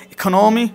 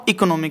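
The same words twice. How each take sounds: First: ইকোনমি with breathy kh and long "no", rising; correct pronunciation. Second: ইকোনমি with full "i-ko", falling; wrong pronunciation. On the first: Teacher giving the correct form, ইকোনমি as "i-kho-NO-mi". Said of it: "কি হবে?". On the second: Teacher showing what to avoid, ইকোনমি with plain k. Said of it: "not ইকোনমি". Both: Shown as a demonstration.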